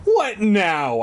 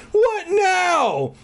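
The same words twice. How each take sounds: First: Higher, mildly exasperated dread; lightly acted dread; dread with a shudder. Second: Very high, hammed-up wail; over-the-top high-pitched despair; exaggerated dread. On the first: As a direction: wonder uneasily, voice lifted. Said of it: "I thought with a shudder". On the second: Repeats the thought far more hammed-up. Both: A narrator's reading.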